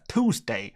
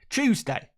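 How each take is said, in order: First: It is said in an American accent. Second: It is said in a British accent. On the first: "What do you say in America?" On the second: "It's the correct way of saying it"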